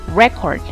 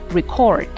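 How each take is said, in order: First: The stress is on the first syllable. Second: The stress is on the second syllable. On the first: It is used as a noun. "It was before record" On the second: It is used as a verb. "now as a verb it is record"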